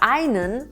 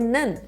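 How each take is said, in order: First: The word is said in full with two syllables. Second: The word is cut to one syllable, nen. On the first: This is the careful standard form. "anstatt einen" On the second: This is the casual everyday form. "sagen wir nen"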